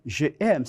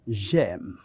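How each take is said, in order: First: "je aime" as two separate words, je then aime; "je aime" without joining je onto aime; unelided "je aime". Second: "j'aime" run together as one syllable; slow "j'aime", the j joined onto aime; elided "j'aime". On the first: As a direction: keep the vowel of je before aime in "je aime". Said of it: "No podemos decir je aime". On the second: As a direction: drop the vowel of je, gliding straight into "j'aime". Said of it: "apostrofamos. No podemos decir je aime, sino". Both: Shown as a demonstration.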